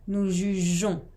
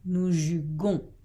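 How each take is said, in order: First: The middle consonant is a soft 'j' sound. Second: The middle consonant is a hard 'g' sound. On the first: The speaker calls it right. "il faut ajouter un E pour garder le son J" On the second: The speaker calls it wrong. "si on enlève le E, ça donne"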